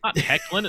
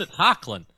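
First: Hecklin with an eh vowel; wrong pronunciation. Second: Hocklin with an open ah vowel; right pronunciation. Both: Shown as a demonstration.

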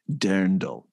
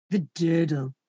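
First: "Dirndl" with the R sounded; corrected pronunciation. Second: "Dödel" with the R swallowed; imitated mispronunciation. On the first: Shown as a demonstration. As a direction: say "Dirndl" low, keeping its R. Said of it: "No, no". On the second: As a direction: say "Dödel", low, without the R. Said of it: "It's like the Dödel woman".

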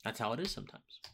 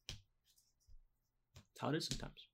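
First: Said in the usual way. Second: Slow, breathy whispered repeat; whispered echo. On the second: Acted. Host to viewers, echoing his point in a slow whisper. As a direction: let it fade to a whisper.

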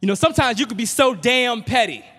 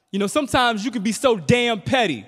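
First: High, loud full yell; louder, higher yell across the house. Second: High, loud yell at mom; higher, louder teenage yell. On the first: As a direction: really belt it down the hall. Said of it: "So I yell out". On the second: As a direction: yell it down the hall at your mother. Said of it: "I yell out". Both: Retold or imitated.

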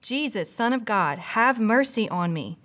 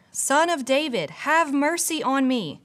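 First: A reader's light shout; mild narrated shout. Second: Higher, insistent plea, still contained; reader's mild shout, stepped up; louder narrated shout. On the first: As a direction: read as an understated cry for mercy. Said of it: "he began shouting". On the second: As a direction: call out with pitch raised, stretching the plea. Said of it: "he only shouted louder". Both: A narrator's reading.

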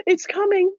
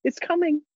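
First: Higher, eager repeat of the line; rising excitement. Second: Said in the usual way. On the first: A narrator's reading. Narrator sees the sunrise come, excited. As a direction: let the thrill break through.

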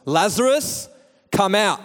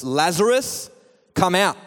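First: High, ringing summons; loud call. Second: Calling out, only a touch raised; a restrained summons, rising on the name; mildly raised call. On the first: Shown as a demonstration. Preacher shows how Jesus called Lazarus out, loud high call. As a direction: call out the name with a rising lift, then command. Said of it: "he called out in a loud voice". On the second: A narrator's reading. Jesus calls Lazarus from the tomb, mildly raised call. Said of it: "Jesus called in a loud voice".

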